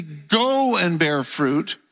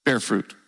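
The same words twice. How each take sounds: First: "Go" drawn out and stressed. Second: Said in the usual way. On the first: Retold or imitated. Preacher quoting Jesus's command to congregation, stress on "Go". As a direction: lean slowly on "Go" before "and bear fruit". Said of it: "he emphasized that word". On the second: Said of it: "instead of just simply saying".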